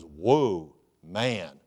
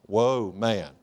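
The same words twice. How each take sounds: First: Awestruck Adam. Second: Said in the usual way. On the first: Acted. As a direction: let "Whoa" drop low as Adam sees her. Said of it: "He goes". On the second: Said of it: "that's where the word comes from".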